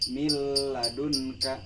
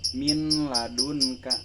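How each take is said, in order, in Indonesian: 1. Bunyi n menyatu ke dalam l. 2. Bunyi n diucapkan dengan jelas sebelum l. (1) "tetapi miladunka" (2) "bukan dibaca"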